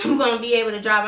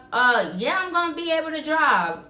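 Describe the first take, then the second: First: Fast, laughing at her own answer; laughing at the memory of insisting she could drive; laughing repeat. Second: Higher, hurried claim she can drive; telling the supervisor she is fine to drive; retold flustered reassurance. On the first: Real, not acted. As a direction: repeat it while laughing at yourself. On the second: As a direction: brush off the worry in a raised voice. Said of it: "Are you gonna be able to drive?".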